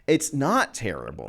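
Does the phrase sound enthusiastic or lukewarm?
enthusiastic. It is said in a warm, enthusiastic way. The thing is actually great. The speaker calls it right. "let me change the inflection of my voice"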